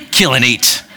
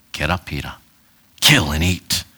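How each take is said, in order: First: Said in the usual way. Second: Deep, far-off voice from heaven; low, hollow commanding voice; booming divine voice. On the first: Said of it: "Not in that tone, but". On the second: Shown as a demonstration. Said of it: "Not in that tone".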